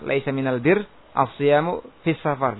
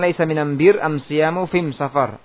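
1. Artikel itu dilafalkan dengan bunyi l. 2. Artikel itu dilafalkan dengan bunyi m. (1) "Aslinya apa?" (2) "Diganti di situ lamnya dengan mim"

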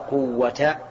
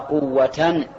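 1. تنتهي الكلمة بفتحة قصيرة -a، بدون نون. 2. تنتهي الكلمة بـ -an، مع إضافة نون. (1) "الأول غير منول" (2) "هذا منول"

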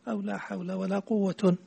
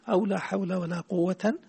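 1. تنتهي الكلمة الأخيرة بـ 'un'. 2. تنتهي الكلمة الأخيرة بـ 'an'. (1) "وبعدها ضمتان" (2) "بعدها فتحتين"

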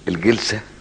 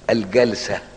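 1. المقطع الأول فيه كسرة (jilsa). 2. المقطع الأول فيه فتحة (jalsa). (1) "الجلسة هيئة جلوسه" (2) "الجلسة المرة من الجلوس"

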